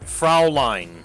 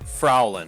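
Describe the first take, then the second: First: The word ends with a 'line' sound. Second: The word ends with a short 'lin' sound. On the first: The speaker calls it right. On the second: The speaker calls it wrong.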